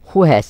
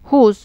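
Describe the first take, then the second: First: It is said as two full words. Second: It is squeezed into one contracted syllable.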